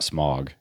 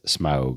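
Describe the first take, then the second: First: The vowel is a plain 'o' sound. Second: The vowel is an 'ow' sound. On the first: The speaker calls it wrong. "they kept saying it wrong. It's not smog" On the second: The speaker calls it right. "You have to put the ow in it"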